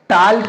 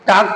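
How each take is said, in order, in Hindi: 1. L की ध्वनि K से पहले बोली जाती है। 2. L साइलेंट है, L की कोई ध्वनि नहीं है। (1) "टाल्क नहीं पढ़ा जाएगा" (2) "टाक पढ़ा जाएगा"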